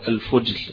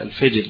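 First: The first vowel is a 'u' sound. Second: The first vowel is an 'i' sound. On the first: This is the form used in the text. "برضه بضم الفاء" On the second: This is the form used in colloquial dialect. "بكسرها في لغتنا العامية"

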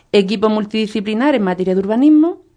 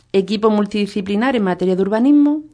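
The two takes are said the same way.

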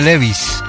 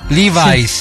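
First: The name is said with Spanish-style pronunciation. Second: The name is said with English-style pronunciation. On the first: This is the common local way to say it. The speaker calls it wrong. "en lugar de Levi's" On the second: This is the original way to say it. The speaker calls it right. "Levi's en lugar de"

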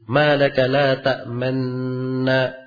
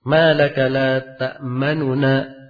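First: The n sounds merge with no vowel between. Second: The second n has a short, quick vowel. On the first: The dropped vowel is only shown, not voiced. "di sukun atau di idghamkan ... suara tidak berpengaruh" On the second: Only part of the dropped vowel is voiced. "Nu yang kedua itu sedikit saja harakatnya, cepat bacaannya"

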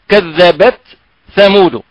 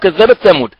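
First: The t is held separate with a breathy release. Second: The t blends into the following th sound. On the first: The speaker calls it right. "الأصل أنها كذبت ثمود هناك تاء ساكنة معها همس" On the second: The speaker calls it wrong. "نسمعه عند كثير من الناس ... فلا ندري هل هي ثاء أم تاء"

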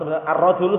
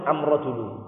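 First: The word begins with the article sound 'ar'. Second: The word begins with the article sound 'am'. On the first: This is the standard form of the article. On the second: This is the Himyar dialect form of the article.

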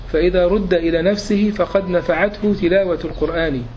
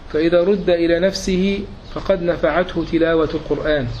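No difference in how they are said.

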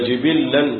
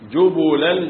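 First: Two i vowels, then a doubled l sound. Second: Two u vowels, then a single l sound. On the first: "بكسر الجيم والباء وتشديد اللام" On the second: "بضم الجيم والباء وتخفيف اللام"

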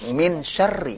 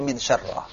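First: The last word ends in an 'i' vowel. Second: The last word ends in an 'a' vowel. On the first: The speaker calls it right. "Makanya kalau ada huruf jar depannya apa? Kasrah" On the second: The speaker calls it wrong. "Enggak bisa dibaca"

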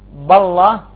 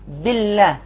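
First: The L sound is heavy and thick. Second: The L sound is light and thin. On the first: The speaker calls it wrong. "يعني ما نقول بالله" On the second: The speaker calls it right. "وإنما نقول بالله"

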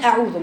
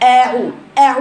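First: The hamza and ain run together. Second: The hamza and ain are pronounced separately. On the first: The speaker calls it wrong. "مش" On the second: The speaker calls it right. "افصلوا بين الهمزة والعين"

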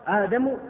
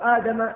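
First: The name ends with a final u vowel. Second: The name ends with a final a vowel. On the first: Adam won the argument. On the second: Moses won the argument.

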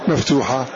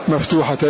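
No difference in how they are said.

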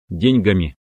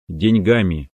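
First: The stress is on the first syllable. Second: The stress is on a later syllable. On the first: This follows an outdated norm. The speaker calls it wrong. "надо делать ударение на первый слог" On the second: This follows the modern norm. The speaker calls it right. "В современном русском языке правильно"

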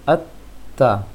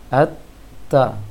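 No difference in how they are said.

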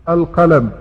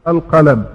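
Both takes have the same delivery.

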